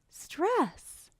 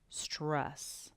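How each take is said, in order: First: The word is said at a high pitch. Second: The word is said at a low pitch. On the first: "A high pitch" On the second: "A low pitch"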